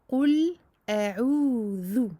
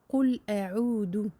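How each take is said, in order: First: The last word has a soft th sound. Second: The last word has a hard d sound. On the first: The speaker calls it right. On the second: The speaker calls it wrong.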